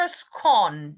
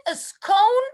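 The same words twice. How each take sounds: First: "scone" with a short O, rhyming with gone. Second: "scone" with a long O, rhyming with cone. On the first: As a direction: say "scone" to rhyme with on. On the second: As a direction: say "scone" to rhyme with stone. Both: Shown as a demonstration. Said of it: "I don't know what the proper way is".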